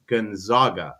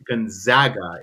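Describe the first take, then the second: First: "Gonzaga" slowed, with an open "ah" in the middle; Spanish Gonzaga. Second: "Gonzaga" with a flat "a" as in zag; wrong Gonzaga. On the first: Storyteller corrects it for the Spanish saint, "Gonzaga" with a broad ah. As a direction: say "Gonzaga" as gon-ZAH-ga. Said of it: "It would be Gonzaga". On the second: Storyteller mocks the school's way, "Gonzaga" rhyming with Zag. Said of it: "He would never have pronounced his name". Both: Retold or imitated.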